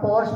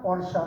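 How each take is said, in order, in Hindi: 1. यह शब्द बिना अंतिम स्वर के खत्म होता है। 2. यह शब्द 'a' स्वर पर खत्म होता है। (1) "हम पोर्श बोलता है" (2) "रियल प्रोनाउंसिएशन है वो पोर्शा है"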